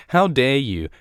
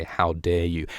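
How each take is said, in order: First: High, louder indignant How dare you; haughty How dare you. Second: Said in the usual way. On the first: Shown as a demonstration. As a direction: sneer it like a snooty villain. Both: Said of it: "the moist of character dialogue".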